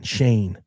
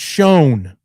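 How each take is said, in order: First: The vowel rhymes with 'rain'. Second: The vowel rhymes with 'stone'. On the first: The speaker calls it wrong. "it's not fucking Shane" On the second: The speaker calls it right. "It's pronounced Shown"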